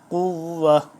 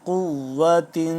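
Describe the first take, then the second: First: The word ends cut short, without the final -tin. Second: The word ends with a full -tin ending. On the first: The reader stops at this word. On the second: The reading continues without stopping.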